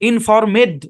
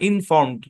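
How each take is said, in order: First: The ending is an extra syllable with a vowel. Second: The ending is a bare d sound. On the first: The speaker calls it wrong. "ইনফরমেড এরকম না" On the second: The speaker calls it right. "ইডি এর sound হবে ডি এর মতো"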